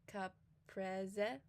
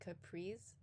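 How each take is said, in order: First: It is said with an Italian pronunciation, every vowel voiced. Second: It is said with an English pronunciation. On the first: "but in Italian it would be caprese" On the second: "I think in English we would say caprese"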